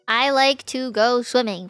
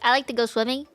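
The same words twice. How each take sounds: First: The word 'to' is said fully, like 'too'. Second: The word 'to' is reduced to a weak 'tuh'. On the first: "I pronounce like the word to very like obviously" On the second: "Most people would say it like"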